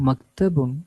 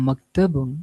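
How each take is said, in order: No difference in how they are said.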